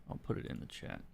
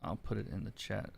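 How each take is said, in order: First: Whispered under the breath while typing; whispered to self. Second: Said in the usual way. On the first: Real, not acted. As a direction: mutter it in a voiceless whisper. Muttering while typing to chat.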